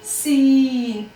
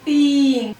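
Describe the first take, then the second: First: The first sound is said hard, with a whistle. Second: The first sound is said softly, without hardness. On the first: The speaker calls it right. "सख्ती से कैसे पढ़ेंगे सीन को?" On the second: The speaker calls it wrong. "इस सीन को अगर नरमी के साथ पढ़ेंगे तो आवाज बन जाएगी तीन। इस तरह नरमी से सीन को नहीं पढ़ना है"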